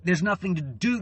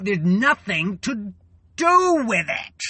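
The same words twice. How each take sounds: First: Said in the usual way. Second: Rising to a loud, much higher cry on do with it; exploding in rage. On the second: Real, not acted. Venting to her viewers about helpless rage, loud outburst. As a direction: let the frustration burst out.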